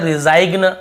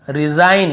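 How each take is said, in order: First: रिजाइग्न with G before the N; wrong sounded-G pronunciation. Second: रिजाइन ending on a clear N; silent-G pronunciation. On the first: Teacher showing the reading to avoid, रिजाइग्न with G. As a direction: say रिजाइग्न, ending "g-na". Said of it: "ऐसे नहीं पढ़ रहे". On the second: Teacher showing students the reading, रिजाइन without G. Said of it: "ग को नहीं पढ़ रहे". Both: Shown as a demonstration.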